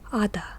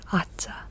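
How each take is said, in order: First: The middle consonant is a d sound. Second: The middle consonant is a z sound. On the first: The speaker calls it right. "Ada is how you say it" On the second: The speaker calls it wrong. "It's not Aza"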